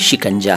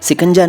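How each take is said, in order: First: The word begins with an sh sound. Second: The word begins with a plain s sound. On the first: The speaker calls it right. "शिकंजा है" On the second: The speaker calls it wrong. "सिकंजा नहीं"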